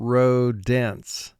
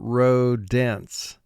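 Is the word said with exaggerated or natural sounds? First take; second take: exaggerated; exaggerated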